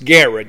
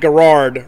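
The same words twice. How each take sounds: First: The final R sound is dropped. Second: The final R sound is pronounced. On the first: The speaker calls it right. "You don't pronounce last R" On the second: The speaker calls it wrong. "It's not Garrard Road"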